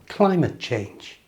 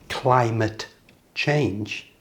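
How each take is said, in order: First: Climate ends in schwa with no T sound. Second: A clear T is heard at the end of climate. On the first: The speaker calls it right. "it's just climate change. Did you hear the T is gone?" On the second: The speaker calls it wrong. "it's not climate change"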